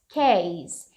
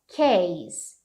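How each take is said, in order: The two takes are said the same way.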